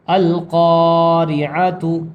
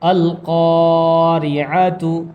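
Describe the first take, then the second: Both takes have the same delivery.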